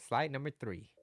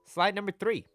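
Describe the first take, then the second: First: Said in the usual way. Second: Higher, louder announcement of the slide; announcing the slide. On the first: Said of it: "Uh, slide number three". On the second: Shown as a demonstration. Coach announces the next slide to his viewers, raised and loud. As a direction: call out the slide number like a host.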